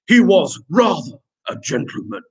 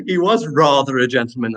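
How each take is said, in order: First: Put-on gentleman voice. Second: Said in the usual way. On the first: Teacher hamming up a pupil's sentence, gentleman voice. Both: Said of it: "do that in a gentleman voice".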